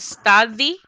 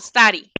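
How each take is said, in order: First: The middle consonant is a hard, clear D. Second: The middle consonant is a soft, R-like flap. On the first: The speaker calls it wrong. "No decimos study" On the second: The speaker calls it right. "como que fuera una R y una I, pero como suavecita"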